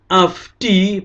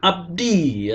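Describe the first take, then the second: First: The consonant before the d sounds like f. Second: The consonant before the d sounds like b. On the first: The speaker calls it right. "adalah hen afdi" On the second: The speaker calls it wrong. "bukan abdi"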